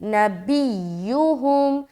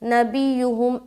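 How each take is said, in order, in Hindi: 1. y की ध्वनि सख्त, दोहरी और रोकी हुई है। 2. y की ध्वनि छोटी और हल्की है, रोकी नहीं जाती। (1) "बल्कि जमाओं और सख्ती के साथ या के ऊपर आवाज़ आपका रुकना चाहिए।" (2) "बाज़ औक़ात यहाँ पर लोग सख्ती के साथ अदा नहीं करते तो शद अदा नहीं होता। ... ऐसा नहीं पढ़ना"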